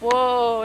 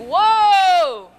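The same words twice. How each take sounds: First: It is said weakly, not as a command. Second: It is said as a firm command.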